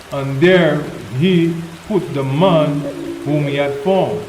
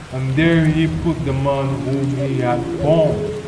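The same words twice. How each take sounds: No difference in how they are said.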